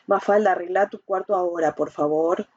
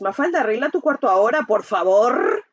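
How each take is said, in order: First: It is said in a calm, firm tone. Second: It is said in a harsh, aggressive tone. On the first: The request is made directly and respectfully. "lo digo sentido" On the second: The request is an angry demand. "La agresiva es"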